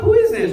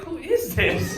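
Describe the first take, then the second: First: Startled question. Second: "Who is this?" said softer, with no surprise; deadpan, indifferent "Who is this?"; a flat, unmoved wife looking at the screen; unimpressed wife. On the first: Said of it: "And she was like". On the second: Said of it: "No, she was just like". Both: Retold or imitated.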